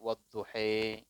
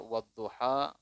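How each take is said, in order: First: The final vowel is shifted toward an 'e' sound. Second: The final vowel is an open 'a' sound. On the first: "ini bacanya wadduhe. Itu kiroat namanya, kiroah sab'ah" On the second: "kita baca wadduha"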